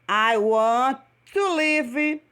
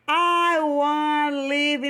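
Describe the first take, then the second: First: 'Want' and 'to' are said as separate words. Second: 'Want to' is blended into one short word.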